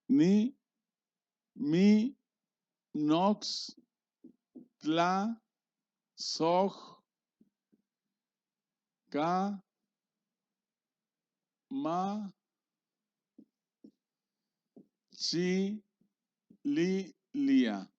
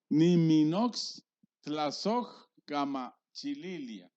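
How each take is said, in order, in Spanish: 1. Cada sílaba se dice por separado, con pausas. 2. Las sílabas se unen en palabras fluidas.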